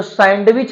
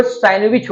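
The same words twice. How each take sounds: First: सैंडविच with the d clearly sounded; सैंडविच spoken as written, full "sand-wich"; सैंडविच with a hard d in the middle; wrong way to say sandwich. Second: सैंडविच with the d dropped, like "sanwich"; सैंडविच with the d silent; correct sandwich. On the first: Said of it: "तो सैंडविच नहीं होता". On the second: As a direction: say सैंडविच as "san-wich", no d. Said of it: "वो सैंडविच होता है". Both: Shown as a demonstration.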